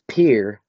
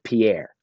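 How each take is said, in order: First: The name is said the way locals say it. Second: The name is said the way outsiders say it. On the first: The speaker calls it right. "it is Pierre" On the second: The speaker calls it wrong. "not Pierre"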